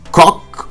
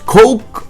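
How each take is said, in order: First: The name is said to rhyme with English cock. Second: The name is said to rhyme with English coke. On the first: "or Cock" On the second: "not Coke"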